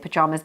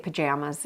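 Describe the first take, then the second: First: It is said in a British accent. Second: It is said in an American accent.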